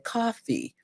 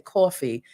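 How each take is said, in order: First: Coffee is said with a Californian accent. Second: Coffee is said with a New York accent. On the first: "Most people in Cali or other places say coffee" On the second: "us New Yorkers say coffee"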